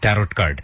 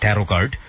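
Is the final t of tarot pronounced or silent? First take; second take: pronounced; silent. First: The final t of tarot is pronounced. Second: The final t of tarot is silent. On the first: "লাস্টের টিটা অনেকে উজ্জ্ব রেখে উচ্চারণ করেন" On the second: "অনেকে বলেন ট্যারো কার্ড"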